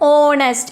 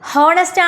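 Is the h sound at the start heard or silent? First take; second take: silent; heard. First: The word begins directly with the vowel sound. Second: The word begins with an audible h sound. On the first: The speaker calls it right. "H is silent here" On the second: The speaker calls it wrong. "H ഹോണസ്റ്റ് ആണോ? No"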